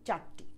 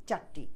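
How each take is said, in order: Both takes have the same delivery.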